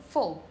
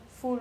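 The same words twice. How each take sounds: First: "full" with a short, dark, falling vowel; "full" falling, without a clear oo; reduced -ful ending. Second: "full" drawn out with a clear oo; over-pronounced "full", oo held long and softer; full oo vowel. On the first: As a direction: say "full" like the weak ending of beautiful, dropping away. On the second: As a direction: say "full" slowly with a rounded oo. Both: Shown as a demonstration. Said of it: "not full or".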